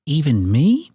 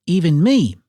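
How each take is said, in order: First: "Even me" as a rising question; lightly voiced little bird, "Even me" left open and unsure; Kiwi asking. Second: "Even me" higher, falling at the end; little bird voice, "Even me" raised then dropped; Kiwi stating. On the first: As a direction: ask "Even me" with the pitch climbing at the end. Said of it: "asked Kiwi". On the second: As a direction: say "Even me" as a settled statement, pitch falling on "me". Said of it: "said Kiwi". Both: A narrator's reading.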